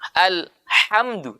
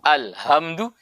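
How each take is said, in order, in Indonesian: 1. Bunyi h adalah bunyi tenggorokan yang tajam dan mendesis. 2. Bunyi h berasal dari dalam tenggorokan. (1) "itu pakai ha pedas" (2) "kalau kita pakai yang ha di sini di pangkal tadi"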